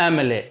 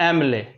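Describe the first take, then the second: No difference in how they are said.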